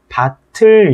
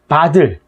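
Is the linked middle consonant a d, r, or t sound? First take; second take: t; d. First: The middle consonant sounds like an aspirated t. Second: The middle consonant sounds like a d. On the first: The speaker calls it right. "얘는 발음이 밭을 이렇게 돼야 된다는 얘기죠" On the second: The speaker calls it wrong. "바를 뭐 이런 식으로 발음하는 경우도 되게 많은데"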